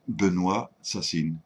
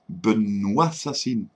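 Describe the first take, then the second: First: The two words are kept clearly separate. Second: The two words are linked into one flow. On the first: It sounds like an ordinary name. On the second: It sounds like Benoît murders.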